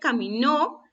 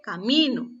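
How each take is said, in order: First: The stress falls on the last syllable. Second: The stress falls on the middle syllable. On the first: It is the past-tense verb for walked. "La primera se refiere al verbo caminar" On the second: It is the noun for a path. "la segunda se refiere al camino, a una vereda"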